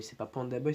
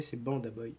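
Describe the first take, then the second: First: "Panda" with a clear P; wrong name. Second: "Banda" with a clear B; correct name. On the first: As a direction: say "Panda Boy" starting with P as in panda. (« Panda » prononcé avec un P) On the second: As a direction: say "Banda Boy" starting with a voiced B. (« Banda » prononcé avec un B bien sonore) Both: Shown as a demonstration. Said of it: "je dis bien Banda Boy".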